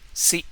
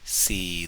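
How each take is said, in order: First: The syllable is short with a plain tone. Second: The syllable is drawn out with a long tone.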